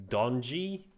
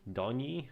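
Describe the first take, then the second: First: "Donji" with a J sound, rising like a question; "Donji" said tentatively as DON-jee, voice lifting; unsure pronunciation. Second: "Donji" said tentatively as DON-yee; second pronunciation attempt. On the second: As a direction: try "Donji" as DON-yee, higher and questioning. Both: Real, not acted. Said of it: "not sure how to pronounce that".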